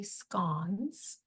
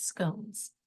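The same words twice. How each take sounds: First: "scones" with a short o, rhyming with "gone"; "scones" clipped, short vowel as in "gone"; everyday scone. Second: "scones" with a long o, rhyming with "stones"; "scones" drawn out, long vowel as in "tone"; posh scone. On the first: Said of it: "it's actually scones, unless you're trying to be posh". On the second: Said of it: "And if you're trying to be posh, it's scones". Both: Shown as a demonstration.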